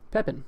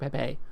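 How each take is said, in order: First: The name ends without rhyming with 'today'. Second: The name ends rhyming with 'today'. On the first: The speaker calls it right. "How do you say it?" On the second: The speaker calls it wrong. "would have rhymed with today and gourmet"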